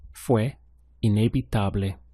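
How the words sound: It is said with statement intonation. It tells a fact. "It was inevitable"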